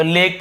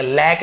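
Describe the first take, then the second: First: लेक with a narrow ए vowel; AY in lake. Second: लैक with a wide ऐ vowel; wrong AE lake. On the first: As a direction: say लेक with ay, as written with ए. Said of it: "तो लेक पढ़ेंगे". (लेक, ए की मात्रा से) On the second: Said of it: "लैक नहीं पढ़ेंगे". (गलत उच्चारण लैक) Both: Shown as a demonstration.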